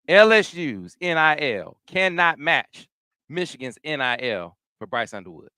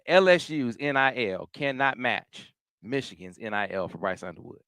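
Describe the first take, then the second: First: It is said forcefully, with loud, emphatic conviction. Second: It is said in a plainer, less forceful way.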